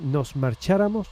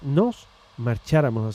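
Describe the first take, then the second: First: The two words run together without a pause. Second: There is a pause between the two words. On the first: "en vez de" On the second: "haciendo una pausa"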